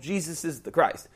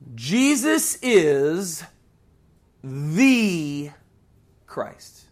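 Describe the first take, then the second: First: It is said plainly, without extra stress. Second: One word is given extra stress.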